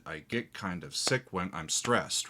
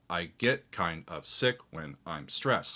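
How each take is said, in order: First: Said in the usual way. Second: Slow, stressing get, sick and stressed with weak syllables between; spoken in a clear strong-weak-weak lilt; stress the meter. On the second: Shown as a demonstration. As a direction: lean on every strong beat of the line, slowly. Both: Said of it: "So there's strong, weak, weak".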